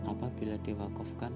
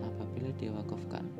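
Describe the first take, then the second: No difference in how they are said.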